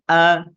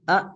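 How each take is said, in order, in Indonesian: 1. Vokal berakhir terbuka tanpa hentian glotal. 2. Vokal dipotong dengan hentian glotal. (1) "Biasa saja" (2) "itu ada eh, ada hamzah bersukun berarti"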